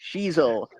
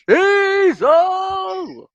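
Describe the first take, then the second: First: The name is said at normal volume. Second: The name is said loudly.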